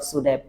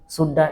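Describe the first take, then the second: First: Every word is said fully and separately. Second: The words are contracted and blended together. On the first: "instead of should have" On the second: "use shoulda"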